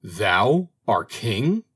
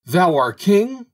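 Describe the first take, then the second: First: Very slow, drawn-out indignant question; angry disbelief. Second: High, loud, drawn-out outraged question; angrier disbelief. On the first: Birds challenging the little bird's claim, slow angry question. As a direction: stretch it out in restrained, angry disbelief. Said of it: "cried the birds angrily". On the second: Birds challenging the bird in the hole, loud angry disbelief. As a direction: cry it out slowly in rising outrage. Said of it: "cried the birds still more angrily". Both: A narrator's reading.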